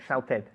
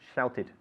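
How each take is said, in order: First: The ending vowel sounds like an 'e'. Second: The ending vowel sounds like a short 'i'. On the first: The speaker calls it wrong. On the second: The speaker calls it right.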